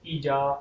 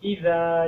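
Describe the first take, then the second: First: The middle consonant is a j sound. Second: The middle consonant is a dh sound. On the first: The speaker calls it wrong. "ज़ाल की बजाय वो जीम पढ़ देते हैं ... ये गलत है" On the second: The speaker calls it right. "जीम नहीं, ज़ाल के साथ पढ़ना है"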